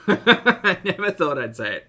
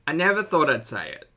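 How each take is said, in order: First: Laughing through the words, louder; giggling as you repeat it. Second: Said in the usual way. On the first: Real, not acted. Laughing while repeating it to chat.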